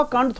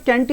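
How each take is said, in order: First: कांट as "kaant", long aa; wrong pronunciation. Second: कैंट as "kaent", front vowel; "ae" before the nt in कैंट; correct pronunciation. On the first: Teacher dismissing the common reading, mispronounced. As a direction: open back vowel in कांट. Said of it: "कांट थोड़ी होगा". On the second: Teacher concluding from the logic, correctly pronounced. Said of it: "तो ये कैंट ही तो होगा". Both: Shown as a demonstration.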